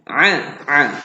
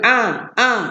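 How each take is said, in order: First: The sound is pressed from the throat. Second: The sound is made in the mouth. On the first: The speaker calls it right. "bunyi dekat kerongkong ditekan" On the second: The speaker calls it wrong. "Kalau bunyi mulut a a ha tak mau"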